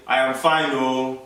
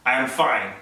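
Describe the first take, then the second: First: "I am fine" with a Nigerian "oh" tacked on the end. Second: Said in the usual way. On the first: Shown as a demonstration. Teaching how to sound Nigerian, "fine" ending in a Nigerian "oh". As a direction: run "fine" into a trailing "oh". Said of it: "You have to say". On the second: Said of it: "instead of saying".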